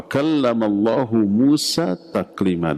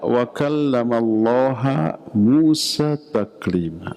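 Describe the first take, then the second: First: The word Allah ends with a 'u' vowel. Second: The word Allah ends with an 'a' vowel. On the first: God is the one who speaks. The speaker calls it right. "hu-nya itu kenapa dibaca hu? Karena Allah fa'il" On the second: God is the one spoken to, denying that God speaks. The speaker calls it wrong. "Oleh Mu'tazilah dibaca wa kallamallaha"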